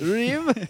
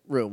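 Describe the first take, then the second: First: The word is said in a French accent. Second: The word is said in a plain accent. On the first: "He's got a very French accent on" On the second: "he drops the accent from there"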